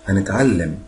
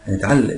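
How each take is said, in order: First: The word is blended into three mouth positions. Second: The word is compressed into two mouth positions. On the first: "ممكن اقولهم على 3 اوضاع" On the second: "ممكن اقولها على 2 بس دي صعبه شويه"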